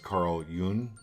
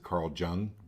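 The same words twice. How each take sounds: First: The surname begins with a Y sound. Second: The surname begins with a J sound. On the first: The speaker calls it right. "It's pronounced" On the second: The speaker calls it wrong. "how maybe some of you pronounce it"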